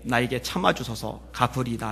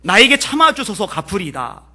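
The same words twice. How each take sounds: First: Said in the usual way. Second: Pleading. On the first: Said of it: "간구하여 이르되". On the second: Retold or imitated. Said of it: "엎드려요".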